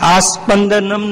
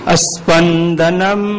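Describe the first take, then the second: First: The first vowel is long. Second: The first vowel is short. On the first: The speaker calls it wrong. "આસ્પંદનમ નહીં" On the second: The speaker calls it right.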